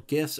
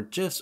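First: "gifs" with a hard g, as in "gift"; "gifs" opening like "give"; hard-g pronunciation. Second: "gifs" with a soft g, like "jifs"; "gifs" opening like "jiffy"; soft-g pronunciation. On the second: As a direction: say "gifs" starting with a j sound. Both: Shown as a demonstration. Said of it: "gifs or gifs".

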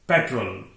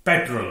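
First: पेट्रोल as PET-rul, falling; correct pronunciation. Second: पेट्रोल ending in a long "role"; wrong pronunciation. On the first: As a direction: shorten the last vowel of पेट्रोल. (सही उच्चारण, पेट्रल जैसा पेट्रोल) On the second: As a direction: say the second पेट्रोल as pet-ROLE. (गलत उच्चारण, पेट्रोल में लंबा ओ) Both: Shown as a demonstration. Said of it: "पेट्रोल नहीं".

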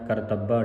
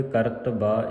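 First: ਕਰਤੱਬਾ as kar-TAB-ba, doubled ਬ; wrong pronunciation. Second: ਕਰਤਬਾ as ਕਰਤ-ਬਾ, undoubled ਬ; correct pronunciation. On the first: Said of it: "ਨਹੀਂ ਪੜ੍ਹਨਾ". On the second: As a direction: keep the ਬ in ਕਰਤਬਾ single, after a closed ਕਰਤ. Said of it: "ਇਸ ਤਰ੍ਹਾਂ ਪੜ੍ਹਨਾ ਹੈ". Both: Shown as a demonstration.

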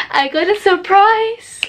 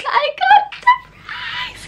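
First: Rising, drawn-out excited announcement; excited reveal. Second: Tiny, very high squeal; thin, drawn-out squeal of delight; excited squeal. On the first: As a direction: announce it slowly, pitch climbing high. Revealing her surprise, first take. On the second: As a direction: squeal it slowly at the top of your voice's range. Repeating the surprise in a squeal. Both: Real, not acted.

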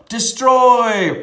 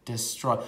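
First: Big booming shout of the word "Destroy"; playful booming "Destroy"; dramatic shout. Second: Said in the usual way. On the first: Pretend. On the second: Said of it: "my turn".

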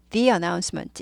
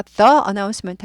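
First: "the announcement" with "the" as "thee"; "thee" before vowel. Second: "the announcement" with "the" as "thuh"; "thuh" before vowel. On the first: Teacher gives the correct form, "thee announcement". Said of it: "A가 모음이죠". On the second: Teacher shows the form to avoid, "thuh announcement". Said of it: "the announcement 하지 않고". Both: Shown as a demonstration.

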